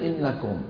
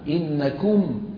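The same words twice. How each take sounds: First: The vowel is reduced, colloquial style. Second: The vowel is a full damma. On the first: The speaker calls it wrong. "ما يصير إنكم" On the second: The speaker calls it right. "ضمة كاملة"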